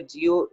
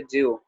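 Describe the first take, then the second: First: जियो in two syllables, ji-yo; contrasted pronunciation. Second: जियो run together as jyo, with no separate i; contrasted pronunciation. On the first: Teacher contrasting two spellings, जियो as ji-yo. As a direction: say जियो with a clear short i before yo. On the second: Teacher giving the second spelling, जियो as jyo. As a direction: glide j straight into yo for जियो. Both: Shown as a demonstration. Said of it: "एक लिखा हुआ है जियो".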